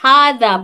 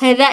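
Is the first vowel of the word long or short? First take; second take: long; short. First: The first vowel is long. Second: The first vowel is short. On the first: The speaker calls it right. "बल्कि हादा पढ़ते। इस हा को पढ़ते अलीफ की तरह" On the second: The speaker calls it wrong. "हम हादा हादा ऐसा नहीं पढ़ते"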